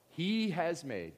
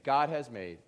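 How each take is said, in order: First: Slow, weighty reading of the verse; slow emphatic reading. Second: God hit louder and falling; God has made, God said loud and firm; stress on God. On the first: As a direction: lean on he has made, drawn out. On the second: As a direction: punch the word God. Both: Shown as a demonstration. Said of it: "look at this first part".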